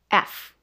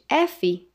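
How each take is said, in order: First: It stops right after the f sound. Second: It ends with an extra vowel after the f. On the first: The speaker calls it right. "podemos parar um pouquinho antes" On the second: The speaker calls it wrong. "em vez de F"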